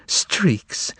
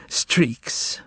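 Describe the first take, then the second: First: Said in the usual way. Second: Breathy whisper, no voice. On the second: A narrator's reading. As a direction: barely breathe the word streaks. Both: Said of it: "She whispered to him".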